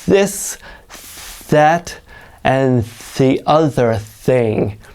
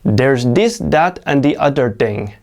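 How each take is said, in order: First: The th sounds are exaggerated, tongue out. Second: The th sounds are said as a d. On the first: The speaker calls it right. "start by really over exaggerating it. Stick your tongue way out" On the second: The speaker calls it wrong. "I hear learners pronounce it as a D"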